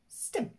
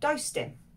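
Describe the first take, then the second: First: It is squeezed into one short syllable. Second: It is said as two full words.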